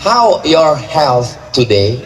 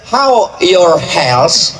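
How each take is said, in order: First: Slow "How your health today" with a clear th; correct pronunciation. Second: Very slow "How your health" with hels, s not th; wrong pronunciation. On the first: Teacher modelling the right th. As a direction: draw it out, landing on th. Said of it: "mesti dibaca pakai T H". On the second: Teacher mocking a wrong th sound. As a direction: drag it out, ending in an s sound. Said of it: "Health artinya neraka jahanam". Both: Shown as a demonstration.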